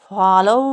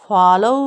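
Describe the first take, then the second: The two takes are said the same way.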